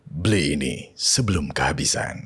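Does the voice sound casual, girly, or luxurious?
luxurious. It is said in an elegant, luxurious voice. It advertises a product in luxury packaging. "Terus kalau yang tadi"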